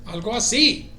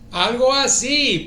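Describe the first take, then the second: First: Said in the usual way. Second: Louder, slower, stretched emphatic repeat. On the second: Shown as a demonstration. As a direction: land it big and slow with a falling end. Repeating Spanish phrase twice.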